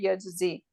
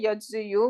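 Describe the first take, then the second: First: The word ends with a plain 'ee' sound. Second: The word ends with a final 'yoo' sound. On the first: The speaker calls it right. "We just say yajzi" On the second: The speaker calls it wrong. "we don't say yajzi you"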